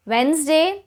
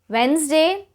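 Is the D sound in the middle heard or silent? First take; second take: silent; silent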